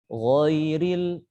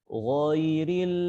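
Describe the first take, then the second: No difference in how they are said.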